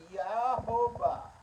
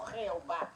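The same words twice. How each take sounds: First: "Yahová" drawn out with a Y onset; teacher modelling "Yahová"; correct pronunciation demo. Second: "Jehová" with a harsh J onset; the rejected "Jehová", J instead of Y; wrong pronunciation demo. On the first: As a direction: sound out "Yahová" slowly, starting on Y. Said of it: "que se dice Yahová". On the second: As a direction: say "Jehová" with a raspy J, as the mistake. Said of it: "no Jehová". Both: Shown as a demonstration.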